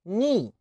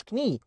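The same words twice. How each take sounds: First: "ني" starting straight on N; English knee, "ني", with the K dropped; silent K. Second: "كني" with a K before the N; K wrongly sounded. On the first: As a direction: say knee as "ني", no K at all. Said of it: "ال كي إن بتنطق إن". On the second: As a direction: mispronounce knee as "كني", K audible. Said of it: "ما اسمهاش كني". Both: Shown as a demonstration.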